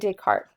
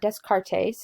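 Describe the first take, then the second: First: The s sound in the name is silent. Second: The s sound in the name is pronounced. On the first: The speaker calls it right. "so we don't pronounce the S's" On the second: The speaker calls it wrong. "It's not Descartes"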